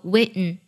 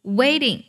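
First: "waiting" as wait-n, weakened ending; nasal release. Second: Said in the usual way. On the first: Shown as a demonstration. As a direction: release the t of "waiting" through the nose. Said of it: "鼻音弱读及鼻音爆破". (把“waiting”读成鼻音爆破) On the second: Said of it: "同样出现了鼻音弱读及鼻音爆破".

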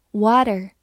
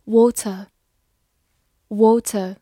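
First: "water" in the American way, a flapped t and an r at the end; American pronunciation. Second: "water" said slowly twice, in the first of two accepted readings. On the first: Teacher models American "water" for students. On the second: Teacher models "water" for students, slowly. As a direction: model "water" before the American one. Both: Shown as a demonstration. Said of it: "美式发音".

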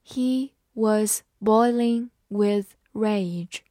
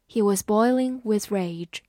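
First: Slow, word-by-word model reading. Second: Said in the usual way. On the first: Shown as a demonstration. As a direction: separate every word with a pause. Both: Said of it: "慢慢来读".

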